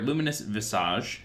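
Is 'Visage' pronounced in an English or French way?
French. Visage is pronounced the French way.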